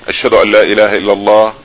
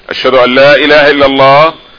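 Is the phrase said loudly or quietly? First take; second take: quietly; loudly. First: The phrase is said in a quiet voice. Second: The phrase is said in a loud voice. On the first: "with a low voice" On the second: "Again, with a loud voice"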